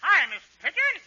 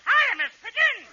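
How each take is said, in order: First: Said in the usual way. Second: Put-on squeaky high little-boy greeting. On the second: Shown as a demonstration. Kid remembers to greet Miss Pigeon in a high little-boy voice. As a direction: pitch it way up like a small child. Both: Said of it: "Oh, high voice".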